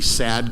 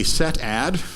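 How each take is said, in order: First: It is read as one word. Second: It is read as two words. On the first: "the sad command, the loneliest of all Redis commands" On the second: "I do a set add"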